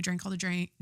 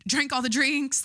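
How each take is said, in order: First: Said in the usual way. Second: Higher and louder, a gleeful punchline; excited. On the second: Retold or imitated. Reliving the Super Bowl party, higher and louder with glee. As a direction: belt the word drinks out like a party cheer. Repeats the phrase with a burst.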